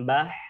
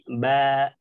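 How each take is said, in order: First: The ba ends with an added breathy h. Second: The ba ends cleanly with no added sound. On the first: The speaker calls it wrong. "tidak ditambahkan dengan huruf ha ... bukan bah" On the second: The speaker calls it right. "tapi ba"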